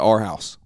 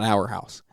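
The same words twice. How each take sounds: First: 'Our' is said like 'are', in a Southern accent. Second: 'Our' is said like 'hour', without a Southern accent.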